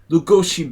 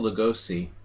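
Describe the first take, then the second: First: The name is said with Hungarian pronunciation. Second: The name is said with American pronunciation. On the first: The speaker calls it right. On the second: The speaker calls it wrong.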